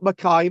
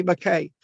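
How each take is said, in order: First: Mackay said as "muh-KAI"; wrong "eye" ending. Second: Mackay said as "muh-KAY"; corrected "ay" ending. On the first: Teacher shows student the wrong name, "kai" pronunciation. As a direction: make Mackay rhyme with "sky". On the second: Teacher gives student the correct name, "kay" pronunciation. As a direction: make Mackay rhyme with "day". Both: Shown as a demonstration. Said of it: "not Mackay".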